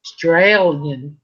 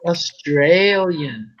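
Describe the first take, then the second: First: "Australian" slow with a long ay sound: strey-lyen; right Australian. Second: "Australian" drawled slowly with a flat short e: a-strel-yen; slow try at "Australian" that misses the long ay; wrong Australian attempt. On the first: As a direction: slowly land "Australian" the Aussie way, strey-lyen. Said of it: "That's it". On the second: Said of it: "No, Australian". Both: Shown as a demonstration.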